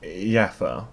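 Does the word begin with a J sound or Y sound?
Y sound. It begins with a Swedish-style Y sound.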